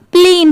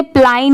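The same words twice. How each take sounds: First: प्लीन with a long ee; long, steady ee in प्लीन; correct pronunciation. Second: प्लाइन with an "eye" glide; wrong pronunciation. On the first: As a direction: say प्लीन as "pleen". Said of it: "प्लीन की sound आ रही है". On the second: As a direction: read प्लाइन as spelt, "pline". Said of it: "इसे प्लाइन नहीं पढ़ेंगे". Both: Shown as a demonstration.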